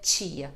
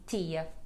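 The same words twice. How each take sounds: First: The T before I sounds like ch. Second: The T before I stays plain. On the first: "Não vai dizer tia" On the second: "mas sim tia"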